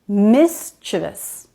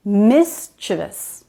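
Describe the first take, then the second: First: The word is said with three syllables. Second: The same.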